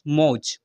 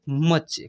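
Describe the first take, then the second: First: It has a long 'au' vowel and ends in 'j'. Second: It has a short vowel and ends in 'ch'. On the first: The speaker calls it wrong. "ऐसे पढ़ लेंगे" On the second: The speaker calls it right. "इसको पढ़ेंगे मच्छ"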